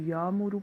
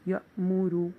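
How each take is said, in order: First: It is said smoothly, without a glottal catch. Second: It is said with a sharp glottal catch. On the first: The word has no hamza in it. "अगर इस पे हमजा साकिन ना हो तो इसको या मुरू पढ़ेंगे" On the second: The word has a silent hamza in it. "जब हमजा साकिन आ जाएगा तो"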